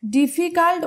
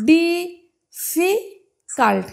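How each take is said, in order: First: Said in the usual way. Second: ডিফিকাল্ট broken into three syllables, di-fi-kalt, with long pauses. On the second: Shown as a demonstration. Teacher counting syllables for students, ডিফিকাল্ট split slowly into di, fi, kalt. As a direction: say ডিফিকাল্ট very slowly, one separate beat per syllable. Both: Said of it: "কটা syllable রয়েছে বলো".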